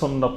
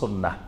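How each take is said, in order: First: The word ends with a t sound. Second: The word ends with a long a and h. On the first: This is the common local form. "বেশি পরিচিত আমাদের দেশে সুন্নত নামে" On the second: This is the original Arabic form. "শুদ্ধ আরবি উচ্চারণ হলো সুন্নাহ"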